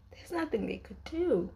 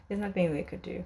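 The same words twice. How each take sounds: First: Sighing, high, helpless lament; sigh, then lift the voice in helpless dismay; pained lament. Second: Said in the usual way. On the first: Real, not acted. Fan lamenting a couple's doomed love, pained and high. Despairing repeat of painful realisation.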